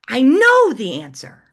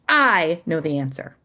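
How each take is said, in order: First: The stress is on the word know. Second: The stress is on the word I.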